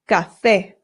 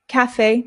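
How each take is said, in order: First: The first vowel is an open Spanish 'a'. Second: The first vowel is an English-style vowel. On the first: The speaker calls it right. "The A makes an A sound" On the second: The speaker calls it wrong. "Not calf, cafe, no"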